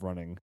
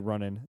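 First: The ending is said as full -ing. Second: The ending is said as -in without g. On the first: The speaker calls it right. "I need to add the ing to it" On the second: The speaker calls it wrong. "I say running instead of running. Ing. I need to add the ing to it"

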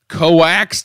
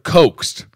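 First: The word is split into two syllables, co-axed. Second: The word is said as a single syllable. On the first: The speaker calls it wrong. "you said the police coaxed him" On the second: The speaker calls it right. "instead of coaxed"

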